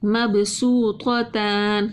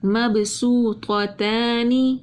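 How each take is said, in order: First: مبسوطتان repeated, heavy ط, thin ت; Quranic recitation. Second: مبسوطتان slowly, ط heavy then ت thin; Quranic recitation. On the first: Tajweed teacher repeats for students, slow recitation. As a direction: say مبسوطتان slowly again. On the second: Tajweed teacher shows heavy and thin letters side by side, slow recitation. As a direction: recite مبسوطتان, full ط, light ت. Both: Shown as a demonstration. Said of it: "تو کو موٹا پڑھتے ہیں".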